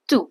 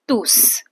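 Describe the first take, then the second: First: The final S sound is silent. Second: The final S sound is pronounced. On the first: The word is used as an adjective. "when we are using it as an adjective, we say tu" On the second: The word is used as a pronoun. "when we are using it as a pronoun, we say tous"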